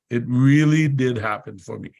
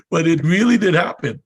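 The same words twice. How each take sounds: First: Said in the usual way. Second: But it really did happen with really punched, higher and louder; emphatic insistence. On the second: Real, not acted. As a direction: hit really hard to insist. Insisting the story is true.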